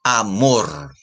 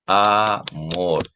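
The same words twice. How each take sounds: First: Said in the usual way. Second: Amor slowly parted into a and mor; teacher's syllable-by-syllable amor; split into syllables. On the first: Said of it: "juntas forman la palabra amor". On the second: Shown as a demonstration. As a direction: say amor as two separate beats, a, then mor. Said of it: "En esta tiene dos sílabas".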